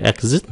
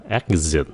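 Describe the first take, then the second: First: Exit said rising at the end like a question; wrong Exit, rising. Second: Exit said slowly with the voice going down; Exit falling. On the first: Teacher imitates the wrong rising exit. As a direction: let exit float up at the end. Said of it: "đừng có exit". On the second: Teacher models the correct falling exit. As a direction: bring exit down slowly at the end. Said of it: "nhớ xuống". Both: Shown as a demonstration.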